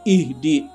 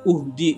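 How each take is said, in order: First: The word begins with an i vowel. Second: The word begins with a u vowel. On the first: The speaker calls it right. "Jadi dibaca ihdi" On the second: The speaker calls it wrong. "bukan uhdi"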